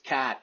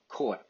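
First: The word is said in an exaggerated Boston accent. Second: The word is said in a natural Boston accent. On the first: This is how bad actors fake the accent. The speaker calls it wrong. "some of the bad Boston accents" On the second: This is how locals really say it. The speaker calls it right.

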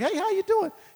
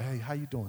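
First: The greeting sounds casual and friendly. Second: The greeting sounds stiff and solemn.

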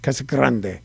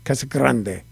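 First: It is said with a Spanish-style pronunciation. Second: The same.

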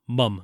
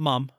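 First: The word has a British short vowel. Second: The word has an American open vowel. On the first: The speaker calls it right. "This is a British movie" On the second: The speaker calls it wrong. "Not mom"

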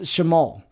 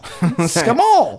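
First: The word begins with an sh sound. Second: The word begins with an sk sound. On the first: The speaker calls it right. "that makes the S-H sound" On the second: The speaker calls it wrong. "I didn't realize that because I'm like"

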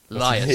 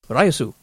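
First: The name is said with English sounds, Laius. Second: The name is said with Japanese sounds, Raiyasu. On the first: "We're going with Laius" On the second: "they give the Japanese pronunciation"

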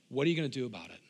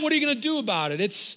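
First: It is said in a warm, loving tone. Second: It is said in a taunting, bullying tone. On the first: The speaker is inviting someone to help solve a problem. The speaker calls it right. "It's a loving God saying" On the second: The speaker is challenging someone to a fight. The speaker calls it wrong. "a bully saying, yeah"

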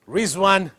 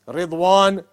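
First: The middle consonant is a 'z' sound. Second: The middle consonant is a heavy 'd' sound. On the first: The speaker calls it wrong. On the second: The speaker calls it right.

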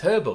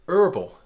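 First: The word starts with an h sound, British style. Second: The h is dropped, American style.

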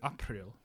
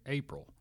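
First: The word has its older Middle English vowel. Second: The word has its modern English vowel. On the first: This is how it was said centuries ago. "Chaucer would have said April" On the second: This is how it is said today. "we say April"

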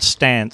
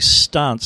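First: It is said with a non-Adelaide vowel. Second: It is said with the Adelaide vowel.

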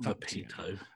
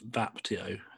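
First: The i sound comes before the t. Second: The i sound comes after the t. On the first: The speaker calls it wrong. "It's not Vapito" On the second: The speaker calls it right. "It's Vapito. The I is after the T"

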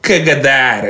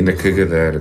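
First: It is said loudly. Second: It is said at normal volume.

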